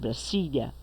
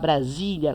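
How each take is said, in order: First: The middle consonant is a hissing S sound. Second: The middle consonant is a buzzing Z sound. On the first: This is how Spanish speakers say it. "com o som do S mesmo" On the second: This is how Brazilians say it. "com esse som de Z que a gente fala"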